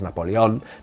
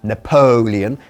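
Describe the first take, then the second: First: The name is pronounced the Spanish way. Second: The name is pronounced the English way. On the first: "así decimos Napoleón" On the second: "enfatizando la segunda sílaba"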